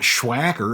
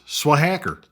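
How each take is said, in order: First: The word begins with an sh sound. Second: The word begins with a plain s sound. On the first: The speaker calls it wrong. "It's not Schwacker because it's not S H W Acker" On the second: The speaker calls it right. "obviously, it's Swahacker"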